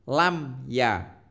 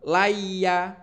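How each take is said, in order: First: The m sound is clearly pronounced. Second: The m sound is dropped entirely. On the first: The speaker calls it right. "Harus dibaca jelas" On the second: The speaker calls it wrong. "Tidak boleh eh, laya, laya, tidak boleh seperti itu"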